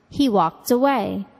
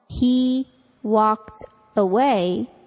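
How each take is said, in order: First: The T of walked links into away. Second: Walked and away are said separately.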